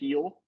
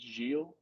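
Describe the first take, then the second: First: The name begins with a breathy H sound. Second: The name begins with a hard G sound. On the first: Others on the broadcast said it this way. The speaker calls it wrong. "They kept saying heel" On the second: The speaker believes this is the real pronunciation. The speaker calls it right. "I swear to God it's Gilles"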